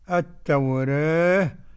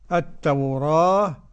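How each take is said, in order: First: The vowel after r is between a and e. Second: The vowel after r is an open a. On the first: "تقليل" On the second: "فتح"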